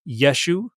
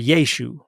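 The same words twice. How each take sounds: First: The first vowel is a short e. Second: The first vowel is a long e. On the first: "with a short E" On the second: "or a long E"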